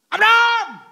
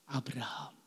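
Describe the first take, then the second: First: The name is shouted loudly. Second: The name is said softly and gently.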